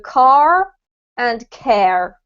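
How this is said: It is said with the R sound.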